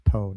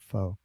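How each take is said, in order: First: The word begins with a P sound. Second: The word begins with an F sound. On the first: The speaker calls it right. "it's actually pronounced Po" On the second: The speaker calls it wrong. "not Fo"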